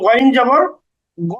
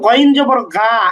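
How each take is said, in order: First: The final vowel is a darker, 'o'-like sound. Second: The final vowel is an open 'aa' sound. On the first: The speaker calls it right. "বরং গইন জবর গ" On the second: The speaker calls it wrong. "গইন জবর গা এমন না"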